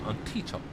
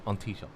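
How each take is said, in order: First: Each sound is carefully and fully enunciated. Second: The sounds run together casually without careful enunciation. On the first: It is the over-careful way some broadcasters say it. The speaker calls it wrong. "Like they would enunciate it" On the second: It is the ordinary everyday way to say it. The speaker calls it right. "don't enunciate it. It's just on"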